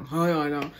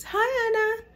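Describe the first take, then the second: First: Friends' awkward hi. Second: Very high, sing-song greeting; chirpy hi. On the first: His friends entering her house, mumbled greeting. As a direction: mumble it like sheepish tagalongs. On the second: Boyfriend walking into her house, sing-song greeting. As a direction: greet her brightly as if nothing happened. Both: Retold or imitated.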